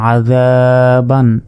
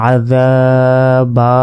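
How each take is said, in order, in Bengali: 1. শব্দটি একটি n ধ্বনি দিয়ে শেষ হয়। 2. শব্দটি একটি দীর্ঘ আ স্বরবর্ণ দিয়ে শেষ হয়। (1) "বা দুই জবর বান" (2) "আর যদি ওয়াকফ করি"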